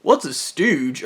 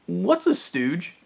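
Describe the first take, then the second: First: Slow repeat of her question, falling flat at the end; incredulous echo. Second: Slow, higher puzzled asking, rising at the end; puzzled question. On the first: He slowly repeats her question back, incredulous. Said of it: "And I was". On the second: Coworker slowly asks what a stooge is, puzzled. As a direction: ask it like you've never heard the word. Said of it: "And she's". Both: Retold or imitated.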